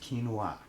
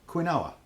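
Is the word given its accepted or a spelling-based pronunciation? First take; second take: accepted; spelling-based. First: The word gets its accepted, established pronunciation. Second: The word is pronounced the way it looks spelled. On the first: This is how the word is actually meant to be said. "apparently it likes to refer to itself as quinoa" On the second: This is how the written word reads to the speaker. "To me, that says quinoa"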